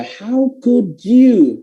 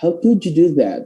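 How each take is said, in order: First: "How could you" very slow, pitched high; long, raised, emphatic "How could you"; heavy emphasis. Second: Casual, unforced "How could you do that"; easygoing linked phrasing; relaxed. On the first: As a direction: lean hard on each word of "How could you". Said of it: "bener-bener yang kayak nekenin". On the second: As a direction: say it lightly, without pressing. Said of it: "mau yang ngomongnya santai". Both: Shown as a demonstration.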